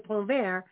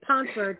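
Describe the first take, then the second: First: The name is said with a French pronunciation. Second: The name is said with an American pronunciation. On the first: The speaker calls it right. "but it's really Pontvert" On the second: The speaker calls it wrong. "the American version is Pontvert"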